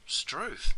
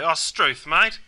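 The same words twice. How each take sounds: First: Surprised exclamation, pitched up; mild surprise. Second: Mock-annoyed outburst, rising on mate. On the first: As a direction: say it as if mildly taken aback. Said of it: "takes you by surprise". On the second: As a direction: show your disapproval of a mate. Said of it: "you might get angry and annoyed". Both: Shown as a demonstration.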